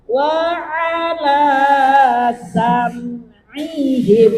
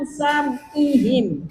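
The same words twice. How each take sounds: First: "sam'ihim" with a throat ain, drawn out; correct ain. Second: "sam'ihim" with a plain s-a, no ain; wrong ain. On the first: Teacher showing the right ain to the student, slow. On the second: Teacher imitating the student's wrong reading. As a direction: say "sam'ihim" without the throat sound. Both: Shown as a demonstration. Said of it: "Jangan sam'ihim".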